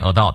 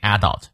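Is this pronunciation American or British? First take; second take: American; British. First: It is said the American way. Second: It is said the British way. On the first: "美国人念adult" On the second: "英国人会念adult"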